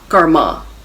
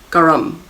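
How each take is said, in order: First: The word ends with an added vowel sound. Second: The word ends without a final vowel sound. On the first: The speaker calls it wrong. "we add an A at the end. It's sort of like anglicizing it" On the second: The speaker calls it right. "It's not garma, it's garm, garam"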